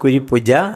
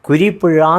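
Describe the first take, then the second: First: The last syllable starts with a j sound. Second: The last syllable starts with a zh sound. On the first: A foreigner cannot say the Malayalam letter. The speaker calls it wrong. "പറയാൻ അറിയാൻ വയ്യ" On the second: This is the proper Malayalam pronunciation. The speaker calls it right. "കുരിപ്പുഴ എന്ന് പറയാൻ ആർക്കും സാധ്യമല്ല"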